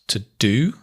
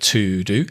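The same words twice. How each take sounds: First: The word 'to' is weak and reduced. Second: The word 'to' is full and unreduced.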